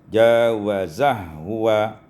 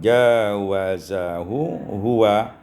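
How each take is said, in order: First: The two h sounds merge into one. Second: A vowel separates the two h sounds.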